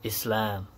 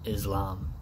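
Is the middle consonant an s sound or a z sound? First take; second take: s; z. First: The middle consonant is a clear s sound. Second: The middle consonant is a z sound. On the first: The speaker calls it right. "or Islam" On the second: The speaker calls it wrong. "not Islam"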